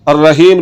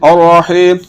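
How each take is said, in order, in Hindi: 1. 'h' हल्का, सादा साँस वाला 'h' है। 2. 'h' हलक के बीच से निकला तना हुआ 'h' है। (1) "ये लफ्ज़ गलत है, इस तरह नहीं पढ़ना" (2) "ये लफ्ज़ सही है और हा को हलक के दरमियान वाले हिस्से से निकालना है"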